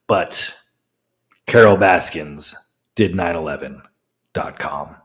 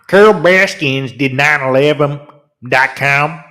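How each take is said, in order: First: It is said in his normal accent. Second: It is said in a put-on accent.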